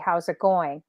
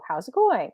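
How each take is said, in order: First: The pitch stays flat throughout. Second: The pitch rises like a question. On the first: "I'll just be like flat" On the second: "they'll raise their pitch tones"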